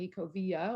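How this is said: The double L sounds like 'y'. This is how it is usually said elsewhere. "instead of a y"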